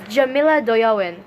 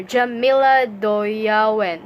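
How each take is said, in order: First: Said in the usual way. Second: "Jamila Doyawen" slowly sounded out; slow, careful second try at "Jamila Doyawen"; careful name pronunciation. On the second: Real, not acted. Rereads the name to correct it.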